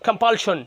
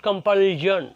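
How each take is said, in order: First: "compulsion" as kom-pal-shon; clear SH in "compulsion". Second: "compulsion" as kom-pal-jon, dragged out; mispronounced compulsion. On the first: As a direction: say "compulsion" with crisp SH, not J. ("compulsion"-এ স্পষ্ট শ, কম্পালশন) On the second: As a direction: say "compulsion" slowly with J for SH. ("compulsion"-এ শ-র বদলে টেনে জ, কম্পালজন) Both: Shown as a demonstration. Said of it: "not compulsion।".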